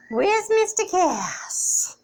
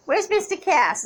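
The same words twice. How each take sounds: First: Whisper. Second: Said in the usual way. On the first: Real, not acted. Owner whispering while searching for the sleeping cat. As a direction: hush it, don't wake him.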